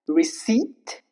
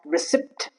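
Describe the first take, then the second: First: No p sound is heard before the t. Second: A p sound is heard before the t. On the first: The speaker calls it right. "There is no hint of P" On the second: The speaker calls it wrong. "It's not receipt"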